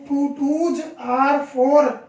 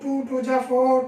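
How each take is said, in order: First: The words 'twos are' are pronounced fully and clearly. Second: The words 'twos are' are slurred into 'ja'. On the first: The speaker calls it right. "ये सही pronunciation ये है उसका" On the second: The speaker calls it wrong. "ये गलत है"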